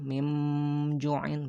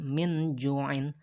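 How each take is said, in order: First: The n is changed into an m sound. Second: The n is said as a clear full n. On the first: "bukan juga diganti jadi mim" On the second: "bukan min ju'in"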